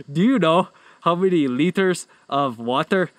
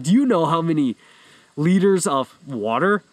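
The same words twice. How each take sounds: First: Badly faked Irish accent with odd t's; attempted Irish accent. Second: Said in the usual way. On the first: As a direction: imitate an Irish professor's accent, clumsily. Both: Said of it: "I'm done with the accent".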